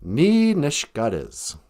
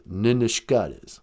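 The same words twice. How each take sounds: First: Slow ni nishkadez, careful Ojibwe; Ojibwe word. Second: Nin nishkadez with nin clearly sounded; corrected Ojibwe. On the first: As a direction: say ni nishkadez slowly. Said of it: "we would say". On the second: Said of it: "actually, you do say nin nishkadez". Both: Shown as a demonstration.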